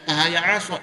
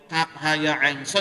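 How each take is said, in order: First: The letter names are shortened and run together. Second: Each letter name is said fully and separately. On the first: The speaker calls it wrong. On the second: The speaker calls it right.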